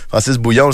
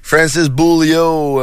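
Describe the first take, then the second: First: The name is said with French pronunciation. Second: The name is said with English pronunciation. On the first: The speaker calls it right. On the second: The speaker calls it wrong.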